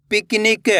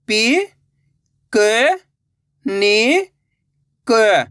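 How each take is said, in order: First: Said in the usual way. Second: पि, क, नि drawn out and rising, last क falling; syllable by syllable. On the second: Shown as a demonstration. Teacher breaking a word for learners, syllable by syllable. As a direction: sound out पि, क, नि, क singly. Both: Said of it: "एक अक्षर का उच्चारण करके".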